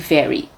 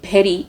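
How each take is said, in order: First: It is said with a clear v sound. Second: It is said in a Bengali accent, like bheri.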